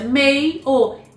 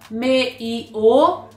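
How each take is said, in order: First: The e and i are joined as one syllable. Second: The e and i are split into separate syllables. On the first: The speaker calls it right. "Olha a pronúncia, meio. ... O correto é mei. Ditongo, o" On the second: The speaker calls it wrong. "E não, não, meio"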